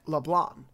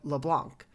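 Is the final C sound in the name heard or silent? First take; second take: silent; heard. First: The final C is silent, ending on the nasal vowel. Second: The final C is pronounced as a k sound. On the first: "if you pronounce it in French, the C is silent" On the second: "based on American English, you would pronounce the C"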